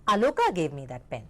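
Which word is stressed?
Aloka. The stress falls on the name Aloka. This person gave it, and nobody else did. "यानी कि आलोका ने मुझे वो pen दिया और किसी ने नहीं"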